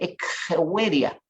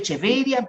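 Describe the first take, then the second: First: The name is pronounced in a Latin way. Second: The name is pronounced in a Spanish way. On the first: "lo correcto en latín sería decir Echeveria" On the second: "yo lo pronuncio Echeveria"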